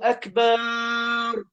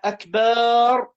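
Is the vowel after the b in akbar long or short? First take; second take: long; short. First: The vowel after the b is drawn out. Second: The vowel after the b is short. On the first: The speaker calls it wrong. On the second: The speaker calls it right.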